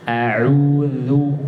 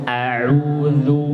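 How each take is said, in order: Both takes have the same delivery.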